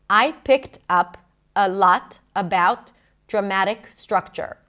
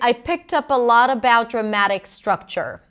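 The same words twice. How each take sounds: First: Each word is said separately with breaks. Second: The words run together with no breaks. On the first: "if I did pronounce every word separately" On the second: "Everything's connected"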